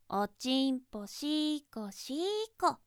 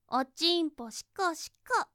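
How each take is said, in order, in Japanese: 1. このフレーズは音を長く伸ばして、ゆっくり言われています。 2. このフレーズは短い音で、速く言われています。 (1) "この速さじゃ物足りない" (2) "ちょっと早く言ってあげるから"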